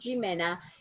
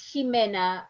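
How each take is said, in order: First: The name is said with an English accent. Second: The name is said with a Spanish accent. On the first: The speaker calls it wrong. "is not Jimena" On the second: The speaker calls it right. "es Jimena González"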